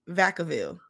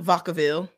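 First: The first syllable sounds like 'vac' in vacuum. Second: The first syllable sounds like 'vod' in vodka. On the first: The speaker calls it right. "like vacuum" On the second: The speaker calls it wrong. "you said emphasis on the vodka"

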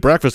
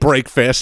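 First: The first part is a short 'breck', run together. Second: The first part rhymes with 'make', as two words. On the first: "We say breakfast and that sounds normal" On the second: "saying break fast sounds weird because we don't say it that way"

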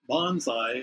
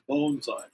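First: The first syllable sounds like 'bahn'. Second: The first syllable sounds like 'bone'. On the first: The speaker calls it wrong. "The other, bonsai, is a little bit more aggressive" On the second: The speaker calls it right. "the true pronunciation is bonsai, like bone"

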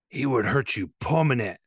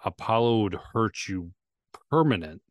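First: It is said imitating Mickey's accent and voice. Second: It is said in the speaker's normal voice.

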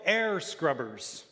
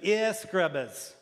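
First: The word is said in the speaker's plain accent. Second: The word is said in a New Zealand accent.

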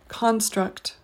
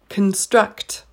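First: The stress is on the first syllable. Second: The stress is on the second syllable. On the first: It is used as a noun. "The noun is pronounced construct" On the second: It is used as a verb. "the verb for this word is construct"

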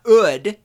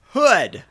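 First: The word starts without an H sound. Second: The word starts with a clear H sound. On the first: The speaker calls it wrong. "It's not ood" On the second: The speaker calls it right. "And you do pronounce the H"

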